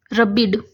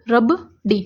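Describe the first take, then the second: First: रबिड read as rə-biɖ, vowel after ब, a nonsense word; wrong reading. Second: रब डी read as rəb-ɖi, vowel after ड; correct reading. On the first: Teacher showing students the wrong reading रबिड, rə-biɖ. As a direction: try out रबिड as rə-biɖ to show the mistake. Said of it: "नहीं, कोई word नहीं बन रहा". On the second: Teacher showing students the right reading रब डी, rəb-ɖi. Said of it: "हाँ, ये word बन रहा है". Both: Shown as a demonstration.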